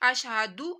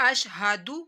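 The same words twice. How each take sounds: The two takes are said the same way.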